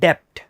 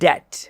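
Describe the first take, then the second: First: A 'p' sound is heard before the final 't'. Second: No 'p' sound is heard before the final 't'. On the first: The speaker calls it wrong. "നമ്മളിത് മിസ്പ്രൊനൗൺസ് ചെയ്യാറ് ഡെപ്റ്റ് എന്ന് പറഞ്ഞാണ്" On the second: The speaker calls it right. "It's pronounced as ഡെറ്റ്"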